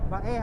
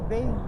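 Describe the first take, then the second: First: It is said as two syllables, ba-eh. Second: It is said as one syllable, like 'bay'. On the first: The speaker calls it right. "Bae ha" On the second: The speaker calls it wrong. "hindi Bay"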